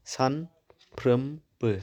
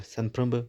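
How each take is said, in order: First: सानफ्रोमबो stretched very slowly, syllable by syllable; drawn out slowly. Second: Said in the usual way. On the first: Shown as a demonstration. Teacher showing students the syllables, very slowly. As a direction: pull सानफ्रोमबो apart into its syllables. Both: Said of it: "सानफ्रोमबो मोनथाम थाबाय".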